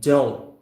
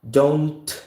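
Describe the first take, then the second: First: The final T is held, not released. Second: The final T is audibly released. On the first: The speaker calls it right. "We're simply holding the T" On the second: The speaker calls it wrong. "instead of releasing the T"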